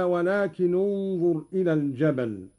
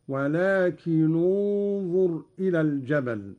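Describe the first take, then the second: First: Said in the usual way. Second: "ولكن انظر" linked as walakinunzur; damma on the nun. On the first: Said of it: "قرأ قالون بضم أولى الساكنين". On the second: Shown as a demonstration. Teacher demonstrating Qalun's reading, "ولكن انظر" joined with damma on nun. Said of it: "بضم أولى الساكنين".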